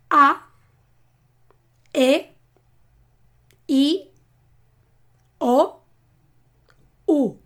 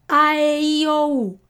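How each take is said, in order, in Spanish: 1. Las vocales se dicen lento y por separado. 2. Las vocales se dicen a su máxima velocidad.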